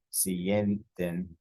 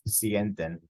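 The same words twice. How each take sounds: First: "sienten" drawn out, weight on "sien"; teacher breaking "sienten" into syllables, stressing the first; syllable-by-syllable stress demo. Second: Said in the usual way. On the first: Shown as a demonstration. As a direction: slowly sound out "sienten" as SIEN-ten. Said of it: "it's the syllable that is stressed". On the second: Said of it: "The second to last syllable".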